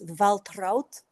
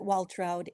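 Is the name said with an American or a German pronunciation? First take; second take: German; American. First: The name is said with a German pronunciation. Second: The name is said with an American pronunciation. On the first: "In German, it's Waltraud" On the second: "in America we pronounce it Waltraud"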